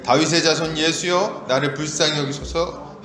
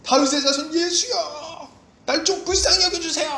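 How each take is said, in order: First: Said in the usual way. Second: Crying out. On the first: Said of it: "같이 읽겠습니다". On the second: Acted. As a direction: stretch out a pleading call for mercy. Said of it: "이렇게 소리를 막 지르는 거예요". (길게 뽑아 애타게 외치기)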